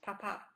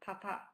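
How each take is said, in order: The two takes are said the same way.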